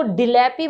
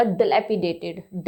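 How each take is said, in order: First: डिलैपी with an "ee"-coloured first syllable; mispronounced dilapidated. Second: Dilapidated starting with a short "duh"; correct pronunciation. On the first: Teacher warning learners off a misreading, wrongly sounded डिलैपी. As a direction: say the faulty डिलैपी, first vowel fully sounded. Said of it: "इसको डिलैपी मत पढ़िएगा". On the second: Teacher modelling for learners, slow dilapidated with "duh" first. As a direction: model dilapidated slowly, first vowel reduced to "uh". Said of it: "अ की यू एच की sound देगा". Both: Shown as a demonstration.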